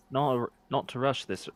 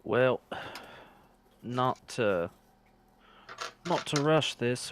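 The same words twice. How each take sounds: First: Second try, still lightly drifting Scottish; a hint of stray Scottish accent; retry the line with a faint Scottish slip; still-wrong Scottish accent. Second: Put-on lightly slipping into a Scottish accent by mistake; a hint of misplaced Scottish accent; slipped Scottish accent. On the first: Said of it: "That's still the wrong accent". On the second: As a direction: attempt at a character voice, drifting Scottish. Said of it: "that's the wrong accent".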